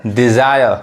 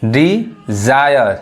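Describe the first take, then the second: First: Said in the usual way. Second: Dzire drawn out slowly with a falling end; teacher stretching Dzire; slow model word. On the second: Shown as a demonstration. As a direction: spell out Dzire slowly for learners. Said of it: "entire".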